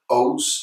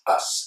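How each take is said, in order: First: The ending has a full 'oh' vowel. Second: The ending has a weak 'uh' vowel. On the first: The speaker calls it wrong. "it's never O's" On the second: The speaker calls it right. "it's always us"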